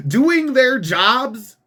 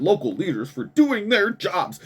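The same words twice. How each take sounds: First: Slow, high, louder scoffing repeat of doing their jobs; incredulous echo. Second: Said in the usual way. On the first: Real, not acted. Scoffing at the mayor's statement, slow incredulous echo. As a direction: drag out Doing their jobs in mocking disbelief.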